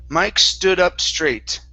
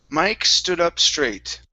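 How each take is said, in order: The two takes are said the same way.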